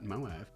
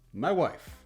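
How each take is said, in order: First: It is in the speaker's own voice. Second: It sounds like Borat's accent.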